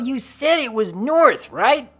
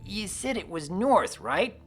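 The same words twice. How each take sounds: First: It is said loudly, shouting. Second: It is said quietly, without shouting.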